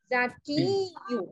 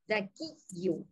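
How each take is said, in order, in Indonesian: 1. Vokal akhir dipanjangkan. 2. Vokal akhir diucapkan pendek.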